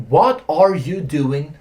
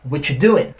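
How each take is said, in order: First: Slow "What are you doing", each word separate; full form. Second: "What you doing" squeezed into whatchu doing; contracted form. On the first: Teacher shows students the uncontracted question, slowly. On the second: Teacher shows what the question can become, contracted. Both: Shown as a demonstration. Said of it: "pode virar".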